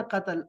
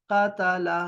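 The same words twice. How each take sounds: First: Said in the usual way. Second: क़तला spelled out with a on each letter, qa-ta-la; vowelled form. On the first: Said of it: "अब ये formula है कि". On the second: Shown as a demonstration. Teacher contrasts the vowelled word for students. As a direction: split क़तला into qa, ta, la. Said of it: "काफ ज़बर क़ा".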